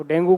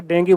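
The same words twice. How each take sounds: First: डेंगू ending in "oo", "DEN-goo"; common mispronunciation. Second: डेंगी ending in "ee", "DEN-gee"; correct pronunciation. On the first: Teacher quoting everyday speech, डेंगू with final "oo". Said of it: "pronunciation अलग होता है". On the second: Teacher correcting students' pronunciation, डेंगी with final "ee". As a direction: finish डेंगी on "gee", with a hard g. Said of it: "डेंगू को डेंगू नहीं बोलते". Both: Shown as a demonstration.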